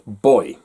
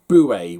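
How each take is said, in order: First: It is one syllable, rhyming with toy. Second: It is two syllables, like boo-ee. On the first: This is the British way of saying it. The speaker calls it right. "Over here, it is pronounced boy" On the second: This is the American narrator's way of saying it. The speaker calls it wrong. "when suddenly the word buoy was thrown at me"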